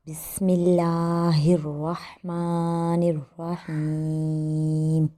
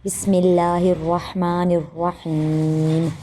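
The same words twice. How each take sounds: First: Slow recitation. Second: Quicker recitation. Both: Shown as a demonstration. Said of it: "ایک بار پھر پڑھتے ہیں".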